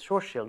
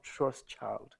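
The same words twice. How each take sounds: First: The ending sounds like the word shield. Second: The ending sounds like the word child. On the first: The speaker calls it right. "Shield is shield" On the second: The speaker calls it wrong. "It's not a child"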